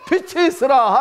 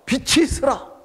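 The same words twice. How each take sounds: First: It is said boldly, with a confident voice. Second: It is said fearfully, with a trembling voice.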